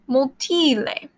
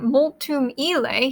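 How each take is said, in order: First: The ending um is dropped, words run together. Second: Both words are said in full, separately. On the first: "he just say multile" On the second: "So instead of saying multum ile"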